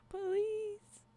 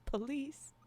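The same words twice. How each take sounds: First: POLICE called out high and drawn out; high mock call. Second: Said in the usual way. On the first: Streamer echoing a chatter who says police, high mock call. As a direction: lift "Police" into a high, put-on cry. Repeats chat's word as a call.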